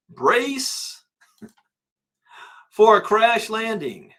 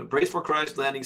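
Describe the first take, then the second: First: High, loud, slow doom-laden voice; ominous announcement. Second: Said in the usual way. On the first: Pretend. Host voicing Kiyosaki's warning to viewers, mock-dramatic doom. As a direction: boom it out like a disaster trailer.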